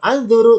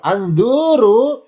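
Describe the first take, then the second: First: "anduru" with a short, unstretched du; short vowel. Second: "anduru" with a long, raised du; long vowel. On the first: Teacher explaining looking just once, short du. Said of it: "dotnya pendek". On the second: Teacher explaining looking until sated, long du. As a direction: draw out the du in anduru. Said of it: "Dunya boleh dipanjangkan". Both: Shown as a demonstration.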